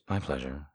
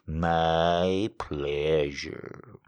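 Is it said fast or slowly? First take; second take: fast; slowly. First: It is said very fast, in a droopy voice. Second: It is said slowly, in a droopy voice.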